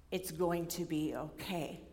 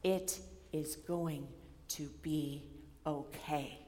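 First: Soft, slow reassuring tone; calm reassurance. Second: Very slow, soft and low; tender reassurance. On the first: Retold or imitated. Advisor calmly reassuring anxious student, soft and slow. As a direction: gently reassure her, unhurried. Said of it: "little smile on his face". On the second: Shown as a demonstration. Preacher voicing Jesus comforting the worried, slow and soft. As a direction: let each word land gently. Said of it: "Jesus saying".

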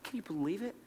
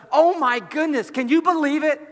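First: Very soft, marvelling question; hushed disbelief. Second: High, loud astonishment; amazed disbelief. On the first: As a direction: ask it barely aloud, in wonder. Repeats the question in hushed awe. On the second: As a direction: exclaim it as if overwhelmed with wonder. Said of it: "there isn't this sense of". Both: Acted.

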